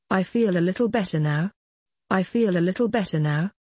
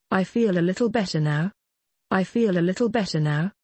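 The two takes are said the same way.

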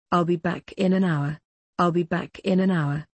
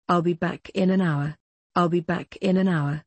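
Both takes have the same delivery.

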